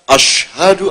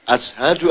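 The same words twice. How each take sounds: First: It is said with an 'sh' sound. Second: It is said with a plain 's' sound. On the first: This is how it should be said. The speaker calls it right. "seharusnya kan" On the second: The speaker could not pronounce the sound. The speaker calls it wrong. "dia tidak bisa mengucapkan shin? Dia hanya"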